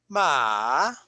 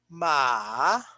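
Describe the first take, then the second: Both takes have the same delivery.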